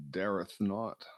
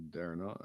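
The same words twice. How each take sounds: First: Put-on dareth not in a raised, louder, old-fashioned tone; mock archaic. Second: Said in the usual way. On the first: Shown as a demonstration. Friend jokingly warns in mock old English.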